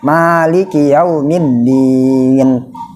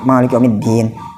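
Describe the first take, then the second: First: The last vowel is held for two beats. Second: It is rushed, with the last vowel clipped short. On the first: The speaker calls it right. "dua harakat bagusnya" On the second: The speaker calls it wrong. "imam cepet terawih lah misalkan"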